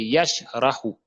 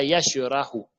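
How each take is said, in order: First: Yashrahu with sh hissing straight into rahu; correct vowelless sh. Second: Yashrahu as "yashe-rahu", with an added vowel; wrong released sh. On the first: Teacher correcting learners, sh left vowelless. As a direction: close yash with no vowel, then rahu. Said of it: "c'est yashrahu". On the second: Teacher showing the mistake, sh given a vowel. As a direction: slip a schwa between sh and r. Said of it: "Ce n'est pas yashrahu". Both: Shown as a demonstration.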